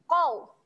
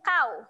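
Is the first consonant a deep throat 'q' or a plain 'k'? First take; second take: deep q; plain k. First: It starts with a deep 'q' from the throat. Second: It starts with a plain front 'k' sound. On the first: The speaker calls it right. "bunyi dia qau" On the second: The speaker calls it wrong. "bukan kau. Kau salah eh"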